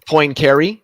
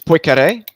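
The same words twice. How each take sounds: First: The N sound is clearly pronounced. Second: The N sound is barely pronounced. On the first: The speaker calls it wrong. "everybody says Poincaré" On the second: The speaker calls it right. "it's Poincaré because he's French. The N, there's not much of an N in it"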